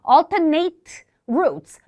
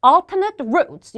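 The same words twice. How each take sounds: First: "alternate" with last syllable as NATE; verb pronunciation. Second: "alternate" ending in a reduced "nut"; adjective pronunciation. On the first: Teacher showing the pronunciation not to use, "alternate" ending like "eight". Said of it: "이게 동사 발음이에요". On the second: Teacher showing how to read it, "alternate" ending in "nət". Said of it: "이렇게 읽어주는 거". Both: Shown as a demonstration.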